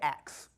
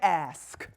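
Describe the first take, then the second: First: It is said as ax, Rochester style. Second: It is said as ask, with s before k.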